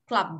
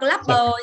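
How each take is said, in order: First: The final b is small and barely heard. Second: The final b is loud with an added vowel. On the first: The speaker calls it right. "mà đọc là club" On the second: The speaker calls it wrong. "không đọc club bờ nhá"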